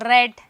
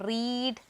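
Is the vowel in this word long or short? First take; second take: short; long. First: The vowel is short, sounding like 'red'. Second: The vowel is long, sounding like 'reed'. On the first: It is the past tense form. "പ്രൊനൗൺസിയേഷനിൽ മാത്രമേ മാറ്റമുള്ളൂ" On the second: It is the present (base) form. "റീഡിൻ്റെ അപ്പോൾ past tense ഏതാണ്?"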